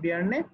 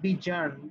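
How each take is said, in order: First: The middle consonant is a y sound. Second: The middle consonant is a j sound. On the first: The speaker calls it right. "উচ্চারণটা বিয়ার্নে" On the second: The speaker calls it wrong. "এটা জ্যার উচ্চারণটা হবে না"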